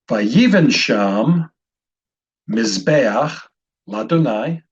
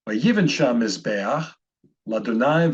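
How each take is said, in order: First: It is read slowly, word by word. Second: It is read quickly and smoothly.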